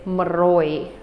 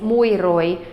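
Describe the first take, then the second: First: The first word shrinks to an m sound. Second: Both words are said in full, separately. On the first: "they say maroi" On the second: "instead of saying mui roi"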